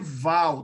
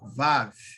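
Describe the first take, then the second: First: The word ends with an L sound. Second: The word ends with a V sound. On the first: The speaker calls it wrong. "Não pode ser Val" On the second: The speaker calls it right. "É Vav, ó, assim, ó"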